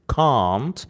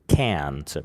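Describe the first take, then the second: First: It is said with a British accent. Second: It is said with an American accent.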